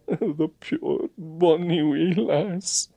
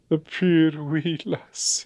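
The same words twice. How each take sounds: First: Tearful Scottish sigh. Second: Sniffle it out in Scots; tearful Scottish mutter. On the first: Agent sighing over the girl as he drives off, Scottish. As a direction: coo it in Scots. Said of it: "puir bonny wee lass". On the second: Agent moved to tears over the girl, muttering Scots. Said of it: "he muttered". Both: A narrator's reading.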